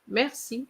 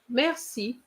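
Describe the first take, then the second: No difference in how they are said.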